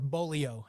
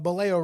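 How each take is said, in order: First: The word sounds very much like polio. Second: The word does not sound like polio.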